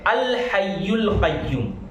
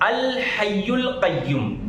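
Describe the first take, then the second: First: After a pause, it begins with the sound 'al'. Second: The same.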